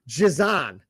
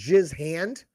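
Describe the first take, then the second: First: The name is blended like a French name. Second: The name is said plainly as two English words. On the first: "it was kind of like saying Giselle" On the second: "Instead of saying Jizz Hand"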